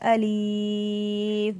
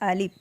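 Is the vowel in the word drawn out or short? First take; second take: drawn out; short. First: The vowel is drawn out long. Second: The vowel is kept short and plain. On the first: The speaker calls it wrong. "लंबा करके" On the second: The speaker calls it right. "Normal easy way में मुट्ठी बंद करके"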